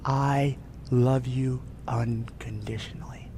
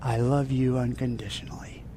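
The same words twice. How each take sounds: First: Unvoiced, slow loving whisper. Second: Unvoiced loving whisper. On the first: God whispering love into the listener's ear, whispered. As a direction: breathe it like a secret. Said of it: "and he says". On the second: God whispering love to the worshipper, whispered. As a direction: breathe it close to the ear. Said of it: "He whispers into your ear".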